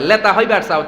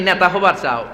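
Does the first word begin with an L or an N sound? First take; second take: L sound; N sound. First: The first word begins with an L sound. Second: The first word begins with an N sound. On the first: "নরে এরা ন বলতে পারে না, ল বলে" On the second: "মানে তুমি নেতা হবার চাও"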